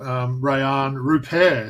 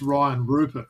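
First: The name is said with a French accent. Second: The name is said with a broad Australian accent. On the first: The speaker calls it right. "if I'm pronouncing that well in that French accent" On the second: The speaker calls it wrong. "If you were like a real Aussie sort of bogan, you'd say it's"

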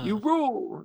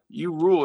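First: The stress is on rule. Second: The stress is on you.

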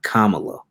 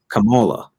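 First: The name is said like the politician's name. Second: The name is said unlike the politician's name. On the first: This is how the politician's name goes. The speaker calls it wrong. "trying to say her name like Kamala Harris" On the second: This is how the character's name goes. The speaker calls it right. "it's Kamala"

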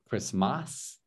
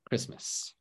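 First: The second vowel is a full, clear a. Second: The second vowel is a short, weak uh. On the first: The speaker calls it wrong. "So not Christmas" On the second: The speaker calls it right. "It sounds like this. Something like this"

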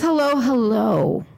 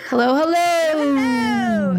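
First: The second hello is said short and plain. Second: The second hello is stretched out long.

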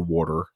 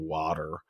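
First: It is said with a New Jersey accent. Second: It is said with a Texas accent.

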